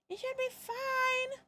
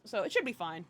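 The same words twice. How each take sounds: First: Mock reassurance. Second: Said in the usual way. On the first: Self-reassuring joke repeat.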